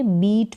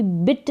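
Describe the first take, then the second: First: बीट with a long ee; long ee sound. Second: बिट with a short i; short i, mispronounced. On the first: English teacher modelling how to read beat, long-ee बीट. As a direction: lengthen the vowel in बीट to ee. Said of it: "बीट पढ़ेंगे". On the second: English teacher warning how not to read beat, short-i बिट. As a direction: cut the vowel short in बिट. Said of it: "बिट नहीं पढ़ेंगे". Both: Shown as a demonstration.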